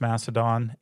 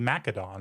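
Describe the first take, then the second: First: The C is a soft S sound. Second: The C is a hard K sound. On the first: "I've always heard it pronounced Macedon" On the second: "you could definitely make the argument that it should be Macedon"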